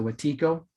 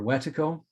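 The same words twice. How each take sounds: First: Wetiko with the stress on the middle, a long "tee"; second-syllable stress. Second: Wetiko stressed at the front, short middle vowel; first-syllable stress. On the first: Speaker shows listeners how some people pronounce it, Wetiko as weh-TEE-ko. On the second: Speaker offers the other pronunciation, Wetiko as WET-uh-ko. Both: Shown as a demonstration. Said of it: "Some people will pronounce it".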